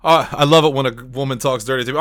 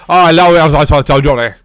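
First: Said in the usual way. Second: Loud, hammed-up thick British accent. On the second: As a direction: imitate him in a thick British accent, nearly mumbled. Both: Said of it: "let me say it like he said it".

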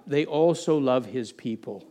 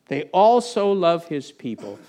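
First: Said in the usual way. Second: Slow, with "also" leaned on; slow it down and press "also"; stress on also. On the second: Shown as a demonstration.

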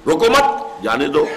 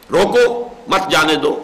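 First: روکو مت joined and rising, then جانے دو apart; slow, with the break after مت; pause after مت. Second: روکو on its own, break, then مت جانے دو together; pause after روکو. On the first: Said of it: "اس کے دوسرے معنی برعکس ہے". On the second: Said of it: "ذرا سا وقفے کا فرق ڈال". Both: Shown as a demonstration.

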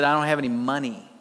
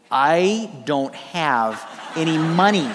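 First: Said in the usual way. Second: Slow and lower, chuckling through it; laughing. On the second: Retold or imitated. Preacher to congregation, repeating his student excuse, laughing slowly. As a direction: laugh at yourself while saying it.

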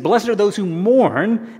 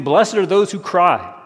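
First: Slow and weighty, a bit higher, landing hard on "mourn"; correct verse, emphasized. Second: Slow and deliberate, leaning on "those" and "cry"; misquote set up to be corrected. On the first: Preacher correcting the misquote, slow and emphatic. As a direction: recite "Blessed are those who mourn" as the true words, with weight. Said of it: "he said". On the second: Preacher slowly reciting the misquote to his congregation. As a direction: lay out "Blessed are those who cry" word by word as the wrong version. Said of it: "Jesus is not saying". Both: Shown as a demonstration.

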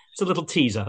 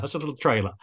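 First: Hushed teaser aside; whisper. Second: Said in the usual way. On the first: Shown as a demonstration. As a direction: breathe it as a secret. Whispered aside, then restated.

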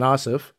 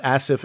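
First: Second Asif with an open A as in father; Asif as AH-sif. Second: First Asif with a flat A as in cat. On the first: Host listing a colleague's two names, Asif as AH-sif. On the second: Host listing a colleague's two names, Asif as ASS-if. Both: Shown as a demonstration.

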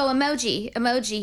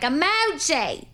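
First: Said in the usual way. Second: Emoji drawn out slow and firm, falling at the end; stern serious call. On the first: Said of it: "if I just go". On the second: Shown as a demonstration. Say Emoji slowly and firmly like you mean it. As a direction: owner calls Emoji sternly to get him to take her seriously, firm drawn-out call. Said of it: "But if I'm like".

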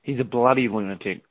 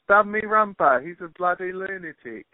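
First: Broad Australian "bloody lunatic", as a demonstration; Australian accent. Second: High-pitched Australian attempt slipping into British; botched Australian accent. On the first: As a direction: show off the Australian way of saying it. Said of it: "say with an Australian accent". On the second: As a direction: try Australian, lose it to cockney-style British. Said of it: "You just did it to David Beckham". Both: Shown as a demonstration.

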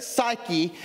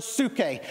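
First: Said in the usual way. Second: "psyche" said soo-kay; Greek pronunciation. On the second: Shown as a demonstration. Preacher teaching the second word for life, "psyche" pronounced soo-kay. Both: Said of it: "or we hear it psyche".

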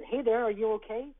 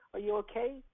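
First: Put-on higher, louder call to a lost child; gentle concern. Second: Put-on stranger gently checking on a lost boy. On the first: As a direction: reach out gently but clearly. Stranger calling to lost boy. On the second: Repeated question to crying boy.

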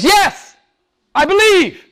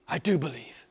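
First: Very high, loud cry of faith; impassioned, high-pitched shout; fervent profession. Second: Suddenly soft, sincere affirmation; very soft after the outcry; hushed profession. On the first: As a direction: cry it out with full conviction. Acts Martha's profession of faith. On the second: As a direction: drop to a quiet, heartfelt confession. Repeats Martha's profession, hushed. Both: Acted.

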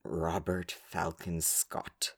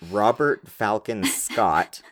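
First: Slow, low, much softer mock-reverent name; hushed grand name. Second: Slow, grandly drawn-out full name; grand explorer name. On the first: Repeating the explorer's name to her co-host, hushed and slow. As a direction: breathe the name like a solemn legend. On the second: Naming the explorers to her co-host, slow and grand. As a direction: announce the name like a legend. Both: Shown as a demonstration. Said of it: "they all have to be like this".

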